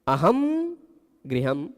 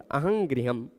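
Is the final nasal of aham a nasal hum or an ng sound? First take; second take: nasal hum; ng sound. First: The final nasal is a plain nasal hum. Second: The final nasal sounds like ng before g.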